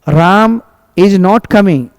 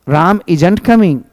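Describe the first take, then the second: First: 'Is not' is said as two full words. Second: 'Is not' is shortened into one word.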